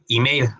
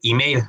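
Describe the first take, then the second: First: It is said with English vowel sounds. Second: It is said with English vowel sounds.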